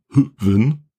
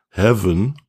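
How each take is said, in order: First: It starts with an H and a ü vowel. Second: It starts with an H sound, like heaven. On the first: "Oder Hüven" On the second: "viele sagen Heaven"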